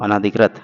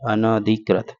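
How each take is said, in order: First: अनाधिकृत said with a long आ after न; wrong form said. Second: अनधिकृत with a short अ, अन-धिकृत; short न, no long आ in अनधिकृत; correct form. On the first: Teacher voices the common mistake अनाधिकृत with long ना. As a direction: say अनाधिकृत as अना-धिकृत, long ना. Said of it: "अनाधिकृत नहीं होता". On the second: Teacher gives students the right form अनधिकृत, short न. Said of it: "अनअधिकृत होता है". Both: Shown as a demonstration.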